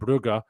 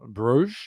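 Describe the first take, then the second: First: It is two syllables with a hard throaty g. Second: It is one syllable ending in a soft zh. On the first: This is the name locals use. The speaker calls it right. "being the Flemish one" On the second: This is the name used by French speakers. The speaker calls it wrong. "being the French one"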